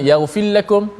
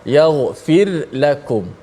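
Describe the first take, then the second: First: The r is swallowed into the following l. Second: The r is clearly trilled before the l. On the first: The speaker calls it wrong. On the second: The speaker calls it right. "biar ada getaran ra"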